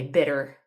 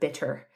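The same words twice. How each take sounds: First: The middle consonant sounds like a soft D. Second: The middle consonant is a clear T. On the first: The speaker calls it wrong. "turn things like double T's into double D's" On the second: The speaker calls it right. "instead of"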